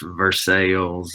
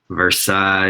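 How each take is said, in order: First: It is said the local Kentucky way. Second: It is said the usual standard way.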